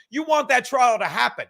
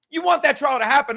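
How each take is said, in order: First: Said in the usual way. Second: Emphatic repeat. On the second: Real, not acted. Repeating point, louder insistence.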